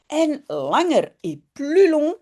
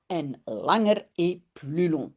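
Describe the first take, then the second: First: First take pitched higher, lively. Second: Said in the usual way. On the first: Shown as a demonstration. Teacher says the phrase to students, higher and brighter. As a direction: say it up brightly for the class to hear. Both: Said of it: "repeats the phrase for the class".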